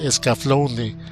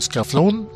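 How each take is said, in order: First: The name ends on a vowel sound. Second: The name ends on a consonant sound. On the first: The speaker calls it right. "pero es" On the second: The speaker calls it wrong. "algunos lo pronuncian erróneamente como"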